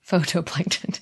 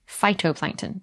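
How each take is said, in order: First: The word begins with 'foe-toe'. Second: The word begins with 'fie-toe'. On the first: The speaker calls it wrong. "not phytoplankton" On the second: The speaker calls it right. "Phytoplankton, not phytoplankton"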